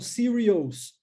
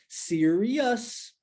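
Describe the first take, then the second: First: The ending is said as a Portuguese-style 'ous'. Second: The ending is said as a short 'us'. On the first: The speaker calls it wrong. "ou então serious" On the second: The speaker calls it right. "o S é pronunciado us"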